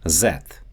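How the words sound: It begins with a z sound. "the tongue placement often shifts toward a sound similar to the English z"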